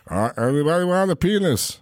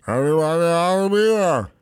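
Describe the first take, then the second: First: "penis" instead of "peanut", slurred; mumbled giant with "penis" in place of "peanut". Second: "peanut" mumbled, T dropped; slurred retake. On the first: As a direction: swallow the T so "peanut" sounds like "penis". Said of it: "it's sounding like you're saying". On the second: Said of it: "can we really hit that T". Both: Retold or imitated.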